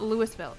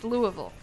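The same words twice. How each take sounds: First: The name gets the common outsider pronunciation. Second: The name gets the local regional pronunciation. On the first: The speaker calls it wrong. "It's just not Louisville" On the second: The speaker calls it right. "It's Louisville"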